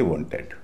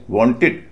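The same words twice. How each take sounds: First: "वांटेड" ending in a full "एड"; wrong ed ending. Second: "वांटेड" ending in a short, light "इड". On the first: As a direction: say "वांटेड" with a clear e in the last syllable. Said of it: "न कि वांटेड". ("वांटेड" के अंत में पूरा एड) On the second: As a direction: say "वांटेड" as "वांटिड". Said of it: "उच्चारण इड होता है". ("वांटेड" के अंत में छोटा इड) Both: Shown as a demonstration.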